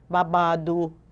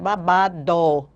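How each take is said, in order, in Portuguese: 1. A vogal final soa como 'oo'. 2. A vogal final soa como 'oh'. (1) "a gente diz u no final" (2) "Mas é babado"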